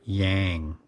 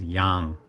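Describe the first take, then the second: First: The vowel sounds unlike the one in Gangnam. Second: The vowel sounds like the one in Gangnam. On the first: The speaker calls it wrong. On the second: The speaker calls it right.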